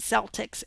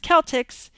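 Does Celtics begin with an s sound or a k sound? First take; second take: s sound; k sound. First: It is said the American way, with an s. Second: It is said the UK way, with a k.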